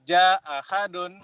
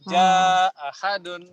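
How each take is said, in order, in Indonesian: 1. Vokal yang dipanjangkan dibaca pendek. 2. Vokal yang dipanjangkan dibaca panjang sedang. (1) "qasr dulu" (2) "kemudian tawasud"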